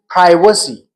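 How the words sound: Privacy is said with an American pronunciation. "While in American English, it is"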